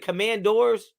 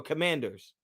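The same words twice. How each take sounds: First: Commandors ending in a full "DOORS"; alternative pronunciation. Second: Commanders with a reduced "ders" ending; standard pronunciation. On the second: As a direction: say Commanders with a weak last syllable. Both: Shown as a demonstration. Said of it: "Is it Commandors or Commanders".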